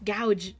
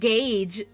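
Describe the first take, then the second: First: The vowel sounds like the one in 'cow'. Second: The vowel sounds like the one in 'day'. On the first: The speaker calls it wrong. "That's not gouge" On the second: The speaker calls it right. "that's gauge"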